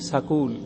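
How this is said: A vowel is inserted between 's' and 'k'. It marks a speaker from Haryana or Rajasthan. "पूरा करके बोलेंगे सकूल"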